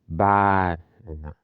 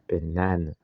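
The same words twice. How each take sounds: First: The stress is not on the middle syllable. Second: The stress is on the middle syllable. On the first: The speaker calls it wrong. "Banana is not banana" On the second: The speaker calls it right. "the stress is on the second syllable. Na"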